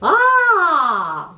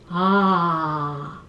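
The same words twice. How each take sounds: First: It is said at a high pitch. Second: It is said at a low pitch.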